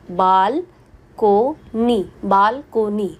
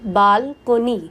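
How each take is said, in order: First: balcony pulled apart with long pauses, बाल, को, नी; split into syllables. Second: balcony in measured parts, बाल-को-नी; three syllables. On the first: Teacher showing three sounds in balcony, each one separated. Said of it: "दो से ज़्यादा division". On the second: Teacher giving a three-syllable example, balcony lightly divided. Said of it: "तीन sounds हो गई". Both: Shown as a demonstration.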